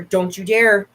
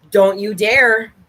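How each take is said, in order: First: Said in the usual way. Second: Drawn-out don't you dare; mock-stern warning to a pet; slow stern warning. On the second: Real, not acted. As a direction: warn the dog slowly and firmly. Warning the dog again, slower.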